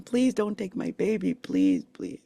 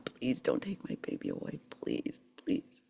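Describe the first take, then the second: First: Retold begging. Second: Soft, near-whispered plea; hushed begging prayer. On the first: Young mother begging them not to take her daughter, pleading. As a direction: plead as if retelling an old fear. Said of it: "I was begging them". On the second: Retold or imitated. Mother begging God over her daughter, hushed pleading. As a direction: beg quietly, voice fading almost to nothing. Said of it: "I've just been begging God".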